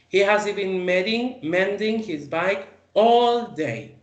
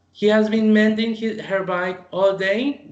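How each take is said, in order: First: "all day" slowed and weighted; stress on all day. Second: "has" lifted, "all day" slowed; teacher repeats with weight on the time; stress on has and all day. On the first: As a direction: drag out "all day" for duration. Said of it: "I'm putting emphasis on the duration". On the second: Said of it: "we put emphasis on the duration". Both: Shown as a demonstration.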